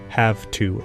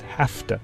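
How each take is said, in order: First: Have ends in a voiced v sound. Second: Have ends in a voiceless f sound. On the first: "the word have ends in the voiced phoneme v" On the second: "Some speakers devoice v to f"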